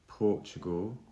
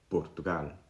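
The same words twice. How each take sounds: First: The P has a puff of air. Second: The P has no puff of air. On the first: "I've added a tiny puff of air when I've said them" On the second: "no aspiration, no puff of air. It's a much shorter sound"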